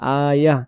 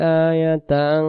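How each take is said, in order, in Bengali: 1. শব্দটি একটি মৃদু h ধ্বনি দিয়ে শেষ হয়। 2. শব্দটি -tan দিয়ে শেষ হয় এবং টানা চলে। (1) "দমটা ছেড়ে দেবো, শেষে হাইয়ের উচ্চারণ ভেসে উঠবে" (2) "দমটা ধরে গেলে আমরা এখানে এভাবে পড়বো"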